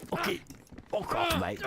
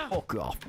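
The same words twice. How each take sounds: First: Higher British lad jeer; mock British accent. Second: Said in the usual way. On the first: Shown as a demonstration. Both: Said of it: "that Game of Thrones accent".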